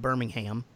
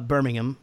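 First: It is said the American way, with a full 'ham'. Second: It is said the British way, with a reduced ending. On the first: The speaker calls it wrong. "instead of Birmingham" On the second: The speaker calls it right. "you got to do Birmingham, of course"

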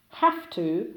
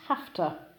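First: Both words are pronounced fully. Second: The words are squeezed into one short form.

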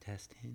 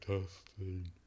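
First: It is said in his regular voice. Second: It is said in a put-on deep voice.

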